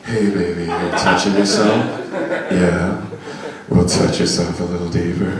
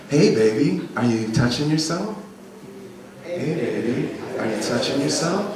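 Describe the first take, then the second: First: Very low, hammed-up sleazy voice; exaggerated deep seducer. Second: Smooth, gentle seductive question; low intimate register. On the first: Coach mocks how not to say it, exaggerated deep seduction. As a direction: push it absurdly deep. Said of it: "So I'm not like". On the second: Shown as a demonstration. Coach models line for students to repeat, low intimate register. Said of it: "I'm talking this register".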